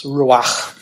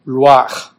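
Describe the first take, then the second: First: "ruach" said roo-ahkh again, the throaty ch lighter and falling; "ruach" restated with a gentler guttural ch; Hebrew ruach, repeated. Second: "ruach" said roo-ahkh with a strong throaty ch at the end, louder; "ruach" with a hard, rasping back-of-throat ch; Hebrew word ruach. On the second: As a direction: give "ruach" a full guttural Hebrew ch, like a rasp in the throat. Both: Shown as a demonstration. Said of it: "I'm not clearing my throat".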